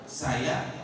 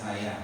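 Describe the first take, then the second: First: The word is said with strong, lively emphasis. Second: The word is said flatly, without any emphasis. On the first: The speaker calls it right. "Nah itu ada penekanan" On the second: The speaker calls it wrong. "Tadi kan kamu kata saya"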